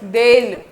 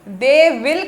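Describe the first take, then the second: First: Said contracted into one syllable, they'll. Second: Said as separate full words, they will. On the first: "दे विल का बन गया देल" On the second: "दे विल का बन गया देल"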